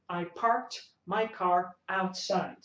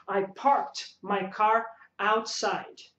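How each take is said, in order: First: Said in the usual way. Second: Slow demo sentence. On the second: Shown as a demonstration. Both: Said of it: "Então você fala".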